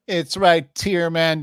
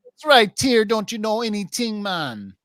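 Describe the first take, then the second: First: First, milder take of the bit; put-on voice. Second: Higher, louder repeat of the bit; louder put-on voice. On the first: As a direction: try the bit lightly. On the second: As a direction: push the bit bigger. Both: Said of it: "Again, again. one more time".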